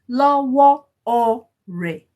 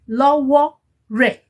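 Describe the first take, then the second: First: It is said with an o vowel before re. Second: It is said without a vowel before re. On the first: The speaker calls it right. "you have to put the o" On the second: The speaker calls it wrong. "If the o is not there, the it will sound weird"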